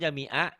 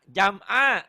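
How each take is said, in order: First: An extra i vowel follows the m. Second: The m closes the syllable with no vowel. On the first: The speaker calls it wrong. "kalau jami'a berarti di sini ada barisnya" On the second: The speaker calls it right. "Jam'a, iya"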